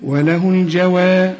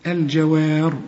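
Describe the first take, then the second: First: "الجوار" with a light و like "واحد" and a heavy final ر; light waw. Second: "الجوار" with a heavy, rounded و; the wrong take, heavy and rounded; wrong waw. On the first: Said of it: "شوف الجوار". ("الجوار" بواو خفيفة كـ"واحد") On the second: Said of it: "ما تقولش الجوار". ("الجوار" بواو مفخمة خطأ) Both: Shown as a demonstration.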